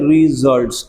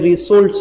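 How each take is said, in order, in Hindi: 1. बीच का व्यंजन भिनभिनाने वाली z की आवाज़ है। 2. बीच का व्यंजन फुफकारने वाली s की आवाज़ है। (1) "यहाँ इस एस की आवाज़ ज़ बोल देते हैं" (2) "पढ़ने में रिजल्ट्स है"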